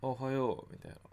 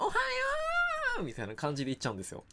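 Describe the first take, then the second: First: It is said with almost no energy. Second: It is said with very high energy.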